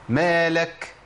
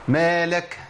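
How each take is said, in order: Both takes have the same delivery.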